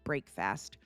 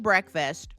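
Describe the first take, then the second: First: It is said as two separate words. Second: It is said as one ordinary word.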